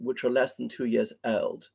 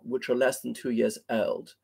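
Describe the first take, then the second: First: It is spoken in a very posh British accent. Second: The same.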